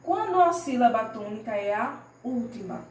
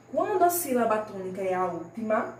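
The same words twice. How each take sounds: The two takes are said the same way.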